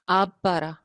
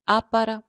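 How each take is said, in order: First: The first word ends with a b sound. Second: The first word ends with a p sound. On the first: The speaker calls it wrong. "उसको कोई आब पारा नहीं कहता" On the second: The speaker calls it right. "बे जो है वो नहीं उसकी आवाज आती, पे की आवाज आती है"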